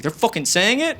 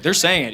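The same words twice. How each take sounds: First: Incredulous question, rising at the end; retold indignant query, pitch climbing on IT; mock angry disbelief. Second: Said in the usual way. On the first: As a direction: imitate an offended friend checking the news. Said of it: "He was angry". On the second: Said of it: "I was like".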